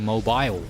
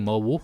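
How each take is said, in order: First: Mobile is said with a British pronunciation. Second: Mobile is said with an American pronunciation. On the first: The speaker calls it right. "in the U K, ... we say mobile" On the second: The speaker calls it wrong. "We don't say mobile"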